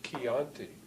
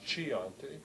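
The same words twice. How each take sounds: First: The word begins with a K sound. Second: The word begins with a CH sound. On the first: The speaker calls it right. "C H stands for a K sound" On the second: The speaker calls it wrong. "It's not Chianti"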